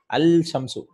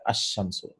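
First: Al-shamsu with a clear l before the sh; wrong unassimilated article. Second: Ash-shamsu with the l silent and the sh doubled; correct assimilated article. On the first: Teacher demonstrates to students the wrong al-shamsu. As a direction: pronounce the l in al-shamsu as the weird wrong form. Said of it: "it sounds very weird". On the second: Teacher gives students the correct ash-shamsu. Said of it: "The lam is not pronounced". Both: Shown as a demonstration.

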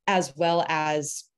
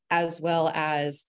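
No difference in how they are said.

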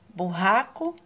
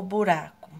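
First: Burraco with an H-like double R; Burraco, strong R between the vowels. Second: Buraco with a light tapped R; buraco, weak R between the vowels; soft tapped R. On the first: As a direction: say Burraco with a throaty R. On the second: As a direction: say buraco with one flick of the R. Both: Shown as a demonstration. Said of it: "Burraco ou buraco?".

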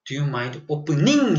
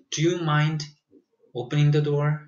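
First: "Do you mind opening?" said very slowly, each word spaced out; slow drilled model phrase. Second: Said in the usual way. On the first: Shown as a demonstration. Teacher drilling students, "Do you mind opening?" very slowly. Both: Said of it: "해야 돼요".

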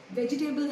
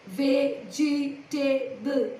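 First: Said in the usual way. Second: Vegetable drawn out in four separate beats; syllable by syllable. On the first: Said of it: "How many syllables does the word". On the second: Shown as a demonstration. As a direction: sound out Vegetable very slowly, each syllable apart. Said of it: "Four syllables".

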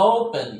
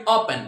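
First: "ওপেন" with a drawn-out oh-oo; long O. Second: Said in the usual way. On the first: Shown as a demonstration. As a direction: stretch and round the first vowel of "ওপেন". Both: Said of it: "ও দিয়ে বলে কি".

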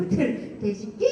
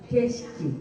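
First: 개식기 with the end rising like a question; wrong ending. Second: 개식기 with the last syllable brought down; falling end. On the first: Teacher showing the class the wrong way to say 개식기, rising. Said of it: "이렇게 하지 말고". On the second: Teacher showing the class the right way to say 개식기, falling. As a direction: drop the pitch at the end of 개식기. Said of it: "내려야 돼". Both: Shown as a demonstration.

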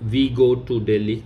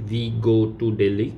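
The two takes are said the same way.

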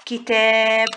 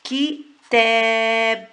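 First: Said in the usual way. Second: كتاب with the long a held very slowly; drawn-out vowel. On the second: Shown as a demonstration. Teacher to pupils showing the madd in كتاب, long vowel held. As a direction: stretch the آ in كتاب to show the madd. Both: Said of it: "يبقى ده مد بالألف".

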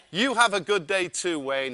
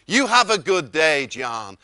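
First: Said in the usual way. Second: Loud Texan send-off, dropping on the name; Wayne. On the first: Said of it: "So I said". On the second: Retold or imitated. Wayne ends the wake-up call, loud Texan impression. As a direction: sign off big, with a hint of Texan.

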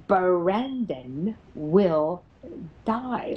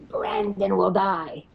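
First: Sarcastic taunt. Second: Slow, lightly growled threat; growly voice. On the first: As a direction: taunt mockingly, stretching every word. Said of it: "The sarcastic little S O B says". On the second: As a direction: imitate a growly entity, drawing it out. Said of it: "in this growly voice". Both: Retold or imitated.

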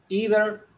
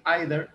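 First: "either" as "EE-ther", pitched up; "either" said high and loud as "ee-der"; variant pronunciation. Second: "either" as "EYE-ther"; "either" said like "eye-der"; alternative pronunciation. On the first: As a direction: start "either" with a long "ee", louder. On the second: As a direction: start "either" with an "eye" sound. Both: Shown as a demonstration. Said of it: "otros dicen either".

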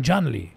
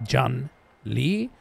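First: "John Lee" run together as one falling word; correct joined name. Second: "John Lee" broken in two, rising on "Lee"; wrong split name. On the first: Correcting a listener on the name, "John Lee" joined and final. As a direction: say "John Lee" smoothly with no gap, firmly falling. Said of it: "sondern John Lee". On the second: Correcting a listener on the name, "John ... Lee" wrongly split. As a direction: pause between "John" and "Lee", end questioningly. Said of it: "und auch nicht". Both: Shown as a demonstration.

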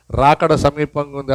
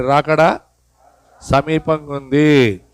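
First: Slow solemn line. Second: Very slow. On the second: Preacher leads congregation to repeat, slowly. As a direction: drag సమీపంగా ఉంది out slowly. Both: Shown as a demonstration. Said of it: "అందుకు చెప్పండి".

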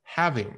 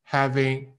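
First: "having" stressed on the first syllable, falling away; original word stress. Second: "Having" level, with no fall on the first syllable; missing stress. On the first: Shown as a demonstration. Teacher corrects to dictionary form, falling "having". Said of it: "修改到它原本的样子". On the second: Retold or imitated. Teacher imitates student's unstressed reading, level "Having". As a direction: give both syllables of "Having" equal, level weight. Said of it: "是因为你把它读成了".

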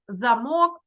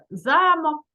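First: Замок з наголосом на друге «мок»: замОк; вимовити замок як замОк; наголос на другому складі. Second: Замок з наголосом на перше «за»: зАмок; вимовити замок як зАмок, голосно й чітко; наголос на першому складі. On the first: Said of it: "падає на другий склад". (замОк, наголос на останньому складі) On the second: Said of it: "Там падає на перший склад". (зАмок, наголос на першому складі) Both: Shown as a demonstration.

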